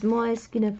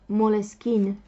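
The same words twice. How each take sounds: First: The brand name is pronounced the Italian way. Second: The brand name is pronounced the French way. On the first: "I'm choosing to pronounce it in a way that is pronounced in Italian way" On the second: "I've heard French people call Moleskine Moleskine"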